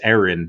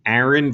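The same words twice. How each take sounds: First: The first vowel is an 'e' sound. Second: The first vowel is an open 'a' sound. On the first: It is the name spelled with an E. "Aaron with an E" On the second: It is the name spelled with an A. "the name Aaron with an A A"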